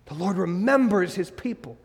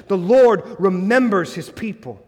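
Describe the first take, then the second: First: Softer restatement. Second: Emphatic proclamation. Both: Shown as a demonstration.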